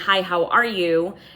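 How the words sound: It sounds warm, delighted and excited. The speaker is thrilled to see a dear friend. "like you're saying it to your long lost best friend"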